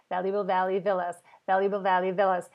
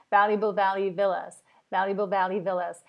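Both takes have the same delivery.

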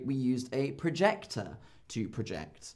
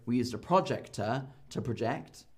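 First: In 'projector' the second syllable is stressed. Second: In 'projector' the first syllable is stressed. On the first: The speaker calls it right. "I say" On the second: The speaker calls it wrong. "So I don't go"

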